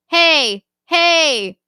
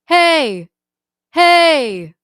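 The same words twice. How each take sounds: First: The sound is pushed from a strained throat. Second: The sound is supported from the belly.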